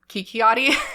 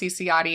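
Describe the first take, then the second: First: The name starts with a 'k' sound. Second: The name starts with a 'ch' sound. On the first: The speaker calls it wrong. "I was pronouncing it Kikiotti" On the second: The speaker calls it right. "I'm pretty sure her last name is pronounced Ciciotti"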